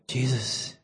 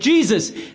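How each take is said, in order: First: It is said softly and gently. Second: It is said loudly and urgently.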